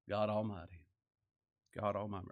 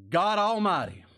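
First: Hushed reverence. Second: Proclaimed loud. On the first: Repeating the phrase, hushed. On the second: Reading Jacob's words aloud. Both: Acted.

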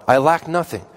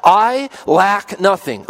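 First: Said in the usual way. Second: "I lack nothing" drawn out slowly, each word weighted and higher; slow confident stress. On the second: Shown as a demonstration. Preacher to his congregation, declaring "I lack nothing" slowly. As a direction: lean slowly on "I lack nothing" with full assurance. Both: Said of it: "and I say that with confidence".

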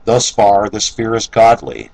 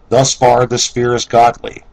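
First: Said in the usual way. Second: Thus stressed, higher and louder; emphatic restatement. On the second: Shown as a demonstration. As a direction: drive home "Thus far this fear is godly". Restated point, second time emphatic.

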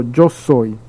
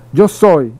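First: Said in the usual way. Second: Yo soy said louder and pressed home; stress on Yo soy. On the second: Shown as a demonstration. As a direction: lean hard on Yo soy to make it land. Preacher repeats Jesus' words emphatically.

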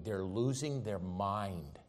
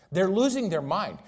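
First: Soft, slow repeat. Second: Louder, higher repeat. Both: Acted. Preacher repeats line, soft then loud.

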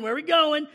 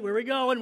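First: Louder, higher, panicking; panicked congregant. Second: Worried congregant. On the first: Congregant fretting to the preacher, louder and panicked. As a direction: let the worry break into alarm. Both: Retold or imitated. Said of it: "You're like".

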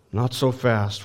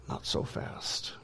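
First: Said in the usual way. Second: Whispered, slow check; slow whispered word of warning; hushed caution. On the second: Acted. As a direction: barely whisper it, drawn out. Preacher checks the disciples' claim.

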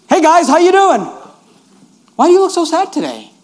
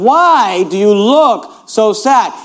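First: Higher, bright greeting to fellow prisoners; cheerful Joseph. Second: Slow, even reading of the question; slow plain paraphrase. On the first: Retold or imitated. Joseph greeting the sad prisoners, cheerful and higher. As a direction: breeze in upbeat and friendly. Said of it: "Joseph walked in like this". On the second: Shown as a demonstration. Pastor explaining the verse, slow and even. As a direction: draw the question out slowly. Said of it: "He's saying".

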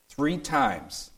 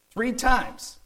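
First: Said in the usual way. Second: Three times pitched much higher, with times falling hard; the preacher's peak of emphasis, soaring; emphatic. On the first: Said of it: "That's what scholars call being emphatic". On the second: Shown as a demonstration. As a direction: hammer Three times, climbing high. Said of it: "Paul is emphatic here".

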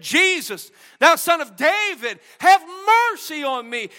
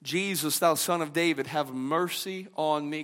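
First: Raised, higher plea to Jesus; preacher crying out Bartimaeus's plea, higher and louder. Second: Quiet, lower humble petition; preacher softly echoing Bartimaeus's cry; softer plea. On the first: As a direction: lift your voice and call out for mercy. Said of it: "He lifted up his voice and said". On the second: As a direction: murmur the plea almost to yourself. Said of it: "he cried out to Jesus". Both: Retold or imitated.

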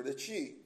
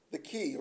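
First: Qi said as "chee"; CH pronunciation. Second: Qi said as "kee"; hard K pronunciation. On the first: Preacher gives the energy's other name, "qi" said CHEE. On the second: Preacher names the energy flow, "qi" said KEE. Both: Shown as a demonstration. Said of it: "I believe it's pronounced".

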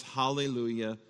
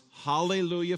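First: Said in the usual way. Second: Heaven's cry. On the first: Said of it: "and heaven cries". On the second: Retold or imitated. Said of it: "Heaven cries".

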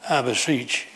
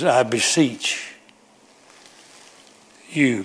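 First: Said in the usual way. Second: I beseech drawn out slowly with a long pause before you. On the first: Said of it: "Go back to the word beach". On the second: Shown as a demonstration. Preacher pleading with the congregation, slow drawn-out I beseech. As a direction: stretch I beseech, hang, then land on you. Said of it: "Got your attention?".

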